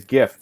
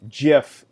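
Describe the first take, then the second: First: It begins with a hard G sound. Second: It begins with a soft J sound. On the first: The speaker calls it right. "With the G, we pronounce the G" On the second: The speaker calls it wrong. "in the way that the inventor of the format uh, envisioned"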